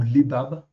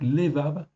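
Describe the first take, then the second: First: The word is said with b sounds. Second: The word is said with v sounds. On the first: "c'est deux bêtes" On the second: "levav ou lebab"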